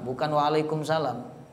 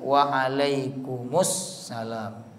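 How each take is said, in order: First: The s sound is short and single. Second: The s sound is held long and doubled. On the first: The speaker calls it wrong. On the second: The speaker calls it right. "Ada tasdidnya"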